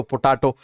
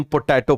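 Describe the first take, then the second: First: पोटैटो said as "po-TAA-to"; variant pronunciation. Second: पोटैटो with an "ay"-like middle vowel; usual English pronunciation. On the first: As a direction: say पोटैटो with a long "aa" middle vowel. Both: Shown as a demonstration. Says potato two ways in passing.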